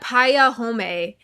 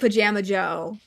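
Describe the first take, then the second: First: The middle sound is a y, ending 'home'. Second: The middle sound is a j, ending 'Joe'. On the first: The speaker calls it wrong. "They said it wrong" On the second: The speaker calls it right. "they were trying to say Pajama Joe"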